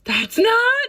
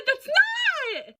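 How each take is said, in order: First: Loud, much higher, rising in alarm; shocked protest. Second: Shouted far higher, falling hard on "not"; full shout. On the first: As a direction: friends horrified, starting to yell. Friends' shocked reaction, building. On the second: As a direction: yell "not" in horror. Friends' shocked reaction, peak. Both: Retold or imitated.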